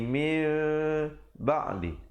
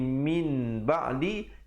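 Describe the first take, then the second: First: The word ends in a light m sound before b. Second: The word ends in an n sound before b. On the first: The final n has turned into m. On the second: This is the original form before the change. "asalnya bunyi"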